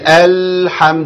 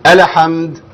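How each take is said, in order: First: The L is held for too long. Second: The L is given a vowel sound. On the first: "ما اقولش الحمد ده كتير" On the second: "ولا اقول الحمد وحركها كده، لا ما تنفعش برضو"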